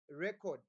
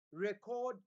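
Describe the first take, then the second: First: Record with the first syllable stressed, REC-ord; noun stress on record. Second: Record with the second syllable stressed, re-CORD; verb stress on record. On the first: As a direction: say record as a thing, short second syllable. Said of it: "you are talking about a noun". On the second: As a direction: lengthen the end of record as an action. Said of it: "to say it is a verb". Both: Shown as a demonstration.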